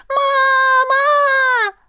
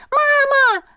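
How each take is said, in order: First: Put-on high drawn-out panicked child's cry; long child's scream. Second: Put-on child screaming. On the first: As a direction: hold the scream like a terrified little boy. (протяжный высокий детский крик) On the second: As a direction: scream like a panicked little boy. (высокий детский крик) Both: A narrator's reading. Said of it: "кричал он, срывая голос".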